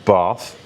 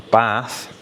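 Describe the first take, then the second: First: "bath" with a long "ah", as "bahth". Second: "bath" with a short front "a" as in "cat". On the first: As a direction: say "bath" with an open back "ar" vowel. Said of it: "where the R is R". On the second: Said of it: "And then there's". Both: Shown as a demonstration.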